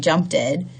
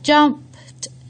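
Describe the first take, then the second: First: The ending adds an extra id syllable. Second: The ending is a plain t sound. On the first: The speaker calls it wrong. "we want don't want them to say" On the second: The speaker calls it right. "the last sound is motor off"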